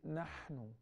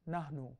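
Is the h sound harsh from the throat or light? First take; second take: harsh; light. First: The h is a harsh sound from the throat. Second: The h is a light, soft breath. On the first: The speaker calls it right. "We say nahnu" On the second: The speaker calls it wrong. "We don't say nahnu"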